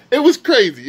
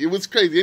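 First: Hyped and loud, pitch jumping up; excited. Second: Said in the usual way. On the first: Real, not acted. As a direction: blurt it out, amazed. Repeats the same phrase, first hyped.

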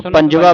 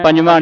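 First: ਪੰਜਵਾ ending in an open oral aa; no final nasal. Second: ਪੰਜਵਾਂ with the last vowel through the nose; nasalised ending. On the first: Teacher correcting a common reading, ਪੰਜਵਾ without final nasal. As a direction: end ਪੰਜਵਾ on a clean vowel without nasalising. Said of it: "ਇਸ ਨੂੰ ਪੰਜਵਾ ਪੜ੍ਹਨਾ ਹੈ". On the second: Teacher showing the mistaken reading, ਪੰਜਵਾਂ with nasal ending. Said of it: "ਪੰਜਵਾਂ ਨਹੀਂ ਪੜ੍ਹਨਾ". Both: Shown as a demonstration.

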